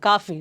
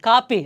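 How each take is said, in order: First: The middle consonant sounds like an f. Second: The middle consonant sounds like a p. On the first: The speaker calls it right. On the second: The speaker calls it wrong. "ಕಾಪಿ ಅಲ್ಲ"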